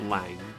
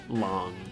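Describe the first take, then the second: First: The vowel is open, rhyming with 'bang'. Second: The vowel is rounded, rhyming with 'song'. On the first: The speaker calls it wrong. "and not Lang" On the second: The speaker calls it right. "the Chinese pronunciation of it is Long"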